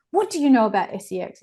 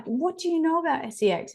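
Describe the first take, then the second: First: Said in the usual way. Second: Asked again much higher, in alarmed disbelief; a mum's startled, high-pitched question. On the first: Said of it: "and I was like". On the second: Retold or imitated. Mum asking her young daughter, higher and alarmed. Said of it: "And I was like".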